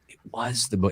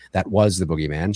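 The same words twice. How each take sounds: First: Was stressed, then the line cut off at bo-. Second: Said in the usual way. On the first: Shown as a demonstration. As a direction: lean on was and cut it short. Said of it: "the emphasis is on "was". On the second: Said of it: "She's not saying".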